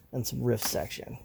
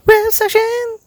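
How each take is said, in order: First: Said in the usual way. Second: A silly high-pitched jingle voice; squeaky segment title. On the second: Pretend. Host announcing his own podcast segment, goofy high squeak. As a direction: jump way up high and sing out the title.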